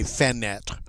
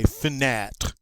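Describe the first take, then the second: First: Fenêtre with the first e fully said, fa-net; teacher shows the mistake; wrong fenêtre. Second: Fenêtre with the mute e nearly gone, f-net; teacher gives the right form; correct fenêtre. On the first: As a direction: say both syllables of fenêtre fully. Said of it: "we certainly don't say fenêtre". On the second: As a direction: swallow the e in fenêtre. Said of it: "We say fenêtre". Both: Shown as a demonstration.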